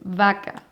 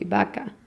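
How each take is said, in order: First: The first sound is said like a v. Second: The first sound is said like a b. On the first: The b and v difference is marked. "But it's vaca" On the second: Many speakers make no b and v difference. "you are going to hear that also people say vaca"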